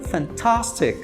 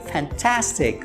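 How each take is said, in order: First: The a is an open a sound. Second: The a sounds between an a and an e. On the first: "no inglês britânico, o A, ele é um A mais parecido com o do português" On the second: "No inglês americano, ... é como se fosse uma mistura do A com o E"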